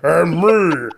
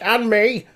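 First: It is said in a big, deep voice. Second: It is said in a small, mousy voice.

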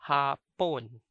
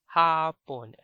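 First: The vowel is said regular, not lengthened. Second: The vowel is said long and drawn out. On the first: It means Japanese. "Note that the vowel is a regular vowel, ah. Okay? Not the long vowel" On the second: It means afternoon. "Different from the long vowel, ah, which is Hapon"

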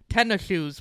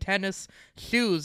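First: It is run together as one word. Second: It is said as two separate words.

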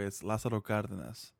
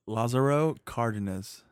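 First: It is said with a Mexican Spanish accent. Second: It is said with an American English accent.

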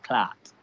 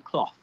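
First: The word has a long ah vowel and ends in t. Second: The word has an aw vowel and ends in th. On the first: "We say C-L-A-A-T" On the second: "So we don't say cloth"

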